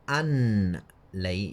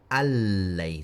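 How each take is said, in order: First: The n is pronounced separately before the l. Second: The n merges into a doubled l sound. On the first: The speaker calls it wrong. "instead of saying an lay" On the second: The speaker calls it right. "merge the noon noon into the lam"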